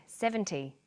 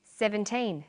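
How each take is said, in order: First: SEVENTY with a short, light -ty; minimal-pair demo. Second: Put-on SEVENTEEN with a long teen and clear final N; minimal-pair demo. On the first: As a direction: say SEVENTY carefully, first syllable strong. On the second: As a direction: say SEVENTEEN carefully, holding the teen. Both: Shown as a demonstration. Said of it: "Now you try these ones".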